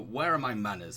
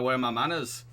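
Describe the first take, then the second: First: It is said in the speaker's ordinary accent. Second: It is said in a Yorkshire accent.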